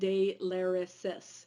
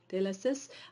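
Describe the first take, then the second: First: The name is said with a Midwestern American accent. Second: The name is said with a French-style pronunciation.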